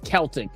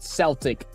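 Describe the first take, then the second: First: The word begins with a hard K sound. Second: The word begins with a soft S sound. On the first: This is the name used for the listeners' teams. "but it's Celtic, right? That's how we pronounce it uh, for for y'all's teams" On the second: This is the name used for the speaker's own sport. "we call it Celtic for like our sport"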